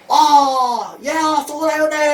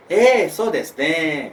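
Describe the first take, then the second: First: Over-the-top high gushing shout; overwhelming joy. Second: Said in the usual way. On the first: Acted. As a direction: exaggerate the delight, loud and very high. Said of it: "nggak perlu sampai overwhelming". (seruan girang berlebihan, tinggi dan keras) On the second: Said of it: "standar adalah".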